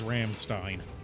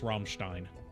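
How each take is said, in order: First: The name is said with an English pronunciation. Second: The name is said with a German pronunciation. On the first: The speaker calls it wrong. "You might know them as" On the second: The speaker calls it right. "the proper pronunciation, because they are German"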